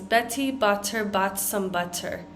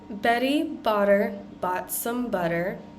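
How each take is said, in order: First: The double T's are crisp, hard T sounds. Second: The double T's are soft, D-like sounds. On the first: The speaker calls it wrong. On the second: The speaker calls it right.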